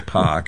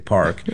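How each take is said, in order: First: It is said in a Boston accent without R. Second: It is said with the R pronounced clearly.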